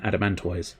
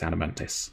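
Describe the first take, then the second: First: The last syllable is said with the o sound. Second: The last syllable is said without the o sound. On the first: The speaker calls it right. "I prefer pronouncing the O. I respect the O in Adamantoise" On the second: The speaker calls it wrong. "the game does insist it's Adamantis"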